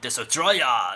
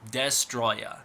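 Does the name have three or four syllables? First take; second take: four; three. First: An extra vowel is added after the first syllable. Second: No extra vowel is added after the first syllable. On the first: The speaker calls it wrong. "it's not pronounced Desotroya" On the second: The speaker calls it right. "It's Destroya"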